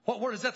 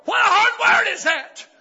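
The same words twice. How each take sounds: First: Said in the usual way. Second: High, full-force shouted question; preacher's outcry. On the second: Real, not acted. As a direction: cry it out to the congregation. Preacher exclaims over scripture.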